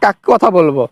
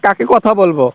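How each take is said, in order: Both takes have the same delivery.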